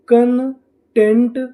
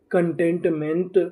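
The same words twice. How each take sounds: First: Slow, stretched and a bit louder, rising at the end; slow blended word. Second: Said in the usual way. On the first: Shown as a demonstration. Teacher to students, blending the syllables slowly. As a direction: draw the whole word out for learners. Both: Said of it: "तो हमारी meaning क्या बनी?".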